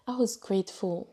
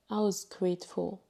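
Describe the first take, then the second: No difference in how they are said.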